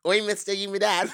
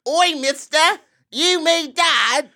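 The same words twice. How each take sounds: First: British accent run together quickly. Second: High, loud British squawk, last words drawn out; exaggerated British accent. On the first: Shown as a demonstration. Host retrying after co-host's critique, quick British accent. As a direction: say the British line in one go. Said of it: "if you say it all quickly". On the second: Host answering the critique, loud drawn-out British accent. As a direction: blare it slowly in broad British. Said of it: "How is that different?".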